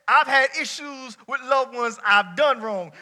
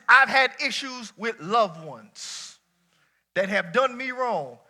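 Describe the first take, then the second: First: "I've" hit hard and drawn out, slow; flipped emphasis. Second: Slow, weighty, every word landed; slow emphatic preaching. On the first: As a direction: lean on "I've done wrong" slowly. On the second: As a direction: lay it out slowly. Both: Shown as a demonstration. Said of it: "Flip that".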